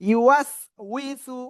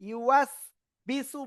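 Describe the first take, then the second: First: The third syllable starts with a w sound. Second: The third syllable starts with a b sound. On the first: The speaker calls it right. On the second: The speaker calls it wrong.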